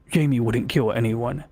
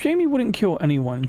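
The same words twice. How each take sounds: First: It is read in a deeper voice. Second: It is read in a normal voice.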